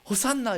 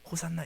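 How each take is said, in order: First: It is shouted loudly. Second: It is said plainly and quietly.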